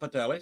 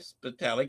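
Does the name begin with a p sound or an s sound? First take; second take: p sound; s sound. First: The name begins with a p sound. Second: The name begins with an s sound. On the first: The speaker calls it wrong. "not Patali" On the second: The speaker calls it right. "Got to get that S in there"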